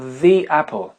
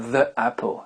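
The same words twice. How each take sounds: First: The article is said with a long 'thee' vowel. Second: The article is said with a short 'thuh' vowel. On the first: The speaker calls it right. "on va dire the apple" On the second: The speaker calls it wrong. "et non pas the apple"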